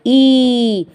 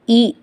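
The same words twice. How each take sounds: First: ई held out long and raised in a level tone; long vowel. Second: ई said briefly, one beat; short vowel. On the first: Teacher listing palatal vowels, ई drawn out long. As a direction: stretch ई well beyond one beat. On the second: Teacher listing palatal vowels, ई kept short. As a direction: keep ई short. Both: Shown as a demonstration.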